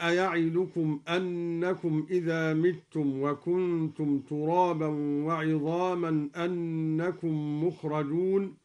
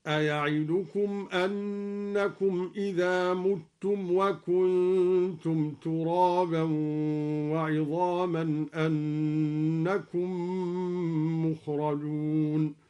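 First: Said in the usual way. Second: متم as mutum, with u, in slow chanted recitation; مُتم with damma. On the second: Shown as a demonstration. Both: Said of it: "قرأ الدوري بضم الميم هكذا".

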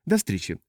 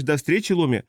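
First: Said in the usual way. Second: Lightly mimicked goodbye, pitched up; mock quoting. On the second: Old pilot parrots the captain's usual goodbye, lightly mocking. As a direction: quote her goodbye back at her, a touch higher. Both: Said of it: "всегда говоришь".

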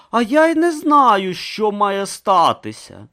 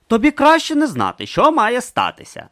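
First: Higher, slow reply, "що має статися" drawn out; puzzled Brutha. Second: Higher, louder, falling warning on "що"; warning Urn. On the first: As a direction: answer innocently and slowly. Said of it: "озвався Брута". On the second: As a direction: warn him gravely. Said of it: "застеріг Урн". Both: Acted.

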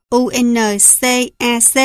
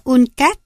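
First: U N C A C read letter by letter; spelled out. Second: Uncas said as one two-syllable word; read as a word. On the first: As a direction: say U N C A C as separate letters. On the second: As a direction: run the acronym together as uncas. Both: Shown as a demonstration. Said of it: "còn đọc là".

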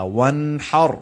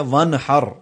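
First: وَانْحَرْ with smooth ن and clear final ر; correct, no qalqala. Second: وَانْحَرْ with a bounce on the ن; mock the common mistake in وَانْحَرْ; wrong qalqala. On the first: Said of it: "نون پر قلقلہ نہیں ہوتا". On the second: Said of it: "یہ غلط ہے". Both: Shown as a demonstration.

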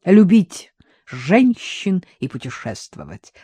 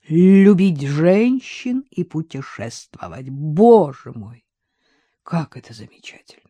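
First: Said in the usual way. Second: Put-on slurred drunk speech. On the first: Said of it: "подсказал Вадим". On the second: A narrator's reading. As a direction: slur it, drunk and happy. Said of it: "заплетающимся языком проговорил".

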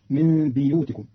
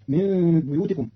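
First: بيوتكم with kasra on the ب, biyutikum; Qalun reading. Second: Said in the usual way. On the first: Shown as a demonstration. (بيوتكم بكسر الباء) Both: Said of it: "بكسر الباء".

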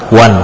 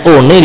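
First: "One" said the English way, like wan; proper English one; English reading. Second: "one" read as written, o-ne, two syllables; spelling-style reading of one; read as spelt. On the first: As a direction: read "One" as one syllable, wan. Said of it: "Tulisannya one dibaca apa?". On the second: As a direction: sound out "one" letter by letter like Indonesian. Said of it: "Kalau bahasa Inggris itu memang susah dibaca". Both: Shown as a demonstration.

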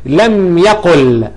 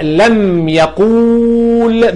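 First: لم يقل slowly, with a short u in يقل; deleted waw. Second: لم يقول with a hugely stretched u; long waw. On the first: Teacher showing the corrected jussive, يقل with short u. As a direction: keep the vowel of يقل short, closing on l. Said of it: "وحذفت الواو". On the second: Teacher showing the form before deletion, يقول with long u. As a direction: hold the u of يقول for seconds. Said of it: "الواو أساسا حرف مد". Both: Shown as a demonstration.

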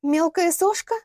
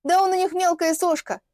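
First: High МЕЛКАЯ СОШКА rising into a question; incredulous echo. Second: High, emphatic dismissal with falling end; scornful put-down. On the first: Лилиана echoes the girl's insult, incredulous question. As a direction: throw the phrase back as a question. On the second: Girl belittles Вадим to his client, scornfully. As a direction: belittle him as a МЕЛКАЯ СОШКА, as a statement. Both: Acted.

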